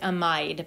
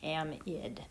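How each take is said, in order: First: The last syllable has a long 'eye' vowel. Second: The last syllable has a short 'ih' vowel. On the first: The speaker calls it wrong. "Looks like amide" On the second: The speaker calls it right. "but it's pronounced amid"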